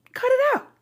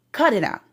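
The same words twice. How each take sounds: First: High mocking Cut it out; high squeak. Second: Said in the usual way. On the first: Shown as a demonstration.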